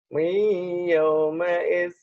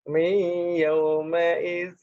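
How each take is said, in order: The two takes are said the same way.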